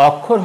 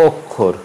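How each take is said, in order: First: অক্ষর begun with open "aw"; wrong pronunciation. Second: অক্ষর begun with rounded "o"; closed first vowel in অক্ষর; correct pronunciation. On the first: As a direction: say অক্ষর as "awk-khor". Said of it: "অক্ষর হবে না". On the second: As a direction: say অক্ষর as "ok-khor". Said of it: "হবে". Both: Shown as a demonstration.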